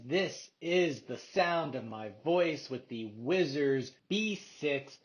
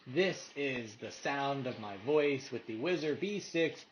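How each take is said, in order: First: The voice is heard without background noise. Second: The voice is heard over ambient background noise.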